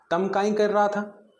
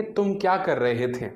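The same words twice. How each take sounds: First: Slow, higher Malwi dialect line. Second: Said in the usual way. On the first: Shown as a demonstration. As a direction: say it the Malwi way, drawn out. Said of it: "इसको मालवी में कैसे बोलेंगे". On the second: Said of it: "जैसे हिंदी में आप बोलेंगे".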